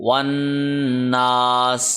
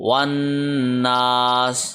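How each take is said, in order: Both takes have the same delivery.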